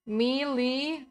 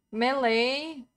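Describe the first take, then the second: First: "Melee" said MEE-lee. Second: "melee" said MEH-lay. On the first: Streamer unsure which is right, "Melee" as MEE-lee. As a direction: say "Melee" with ee in both syllables. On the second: Streamer testing another version, "melee" as MEH-lay. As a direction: say "melee" with eh, then ay. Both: Shown as a demonstration. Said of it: "I don't know which one is right".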